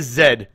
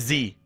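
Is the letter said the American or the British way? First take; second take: British; American. First: The letter is said the British way. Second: The letter is said the American way. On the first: This is how people across the pond say it. "You guys say Z" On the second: This is how Americans say it. "You don't say Z"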